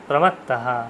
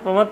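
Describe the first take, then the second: First: The word ends with a final breathy h. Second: The word ends without a final breathy h. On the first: The speaker calls it right. "বিসর্গটা উচ্চারণ করতে হবে" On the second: The speaker calls it wrong. "প্রমাত্ত বলবেন না"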